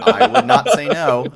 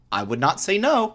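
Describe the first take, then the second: First: NOT punched high and loud; stress on NOT. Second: Said in the usual way. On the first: Shown as a demonstration. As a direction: hit the word not.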